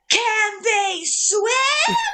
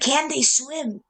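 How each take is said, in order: First: It is yelled loudly like a battle cry. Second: It is said in a lower, quieter voice. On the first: It is a battle cry to the troops. "he just yells" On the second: It is a real question to one person. "lower the screaming voice"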